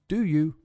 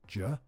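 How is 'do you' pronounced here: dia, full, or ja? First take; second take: full; ja. First: Both words are said fully and separately. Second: The words reduce further into one syllable, 'ja'.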